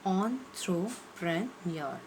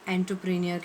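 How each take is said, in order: First: The first syllable sounds like 'on'. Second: The first syllable sounds like 'en'. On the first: The speaker calls it right. "इसका सही pronunciation है" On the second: The speaker calls it wrong. "कई लोग एंटरप्रेन्योर कहते हैं"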